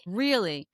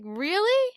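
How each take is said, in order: First: REALLY falling, at ordinary pitch; REALLY dropped down as a deadpan follow-up; unimpressed repeat. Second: REALLY pitched high and rising, disbelieving; REALLY as a high, loud-edged questioning echo; incredulous question. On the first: Host repeats her retold reaction, REALLY with a falling tune. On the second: Host retells her reaction to a remark, incredulous rising REALLY. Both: Retold or imitated.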